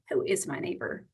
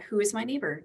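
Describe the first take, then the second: First: It is asked in a challenging, trapping tone. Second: It is asked as a plain, sincere question. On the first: The asker is trying to trap the listener. "like a gotcha?" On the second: The asker genuinely wants to know. "Just a question"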